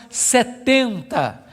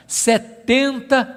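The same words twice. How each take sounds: The two takes are said the same way.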